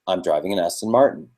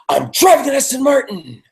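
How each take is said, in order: First: It is said in a plain, mildly positive way. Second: It is said with strong, forceful emotion.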